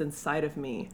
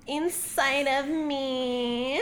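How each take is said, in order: First: Said in the usual way. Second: Slow, drawn-out line rising at the end; hammed-up seductive lift; porn star voice. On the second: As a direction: draw it out like a mock starlet.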